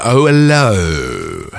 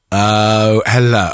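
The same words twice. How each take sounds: First: Very slow, lower hello; drawn-out low hello. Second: Said in the usual way. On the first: Shown as a demonstration. Mic check, trying voices.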